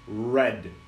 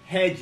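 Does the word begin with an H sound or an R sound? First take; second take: R sound; H sound. First: The word begins with an English R sound. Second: The word begins with a breathy H sound. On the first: The speaker calls it right. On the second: The speaker calls it wrong. "não"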